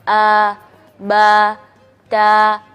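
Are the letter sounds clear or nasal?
clear. The syllables are voiced through the mouth only. The speaker calls it right. "caranya kita latihannya seperti ini"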